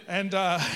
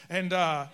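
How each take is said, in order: Both takes have the same delivery.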